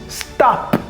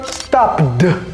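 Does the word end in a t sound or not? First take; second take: t sound; other ending. First: The word ends in a t sound. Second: The word does not end in a t. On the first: The speaker calls it right. "avec une terminaison en t" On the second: The speaker calls it wrong. "plutôt que"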